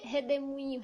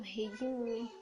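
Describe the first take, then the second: First: Said in the usual way. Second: "redemoinho" shortened to the local "redimunho"; regional pronunciation. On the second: Shown as a demonstration. Showing viewers how locals say "redemoinho", regional shortened pronunciation. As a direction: say "redemoinho" the Ceará way, reduced to "redimunho". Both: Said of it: "Nós chamamos re".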